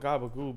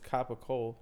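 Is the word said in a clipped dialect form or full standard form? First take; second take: clipped dialect; full standard. First: The word is clipped, with voiced consonants, ending in oo. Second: The word is said in full, ending in ola. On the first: This is the casual name used at home. "I call it gabagoo" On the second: This is the official name of the meat. "but it's capicola"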